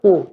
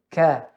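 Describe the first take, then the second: First: The syllable sounds dark and rounded, like 'koo'. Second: The syllable sounds open and light, like 'kah'. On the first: The speaker calls it wrong. "tidak ku" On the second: The speaker calls it right. "tapi ka"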